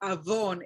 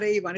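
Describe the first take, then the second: First: It is said as the Hebrew word. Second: It is said like the English brand name. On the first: The speaker calls it right. "it's avon" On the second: The speaker calls it wrong. "it's spelled the same as Avon, but it's not Avon"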